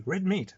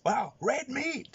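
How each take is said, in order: First: Said in the usual way. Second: High, slow, drawn-out awe; high, slow impressed street voice; amazed gangster. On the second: Retold or imitated. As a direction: marvel at the shirt like a gangster.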